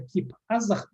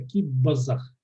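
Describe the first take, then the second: First: It is read as written, with no 'b' sound. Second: A 'b' sound is heard before the second part. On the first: This is how the word is spelled. "пишется" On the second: This is how the word is actually spoken. "произносится"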